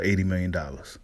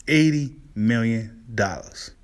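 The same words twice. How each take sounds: First: Said in the usual way. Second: "Eighty million dollars" spaced out slowly, word by word; slow emphatic repeat. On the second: Real, not acted. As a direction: drag out "Eighty million dollars" to let the sum sink in.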